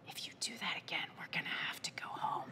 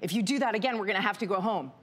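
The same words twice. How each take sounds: First: It is spoken in a quiet whisper. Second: It is spoken in a normal voice.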